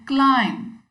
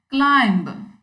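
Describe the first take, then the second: First: No B sound is heard at the end. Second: A B sound is heard at the end. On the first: The speaker calls it right. "It should be climb" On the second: The speaker calls it wrong. "with the last B clearly audible"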